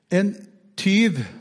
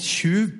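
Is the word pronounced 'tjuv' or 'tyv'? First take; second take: tyv; tjuv. First: The word has a plain 'ty' vowel sound. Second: The word has a 'tju' vowel sound. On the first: This is the standard written-language form. "på sånn bokmål" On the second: This is the local dialect form. "på Nannestad-dialekt"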